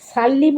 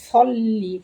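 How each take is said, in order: First: The s is light and plain. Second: The s is heavy and emphatic. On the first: The speaker calls it wrong. "সাল্লি বললে সিন হয়ে যায়" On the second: The speaker calls it right. "সদ গিয়ে লাম পেতে সল্লি"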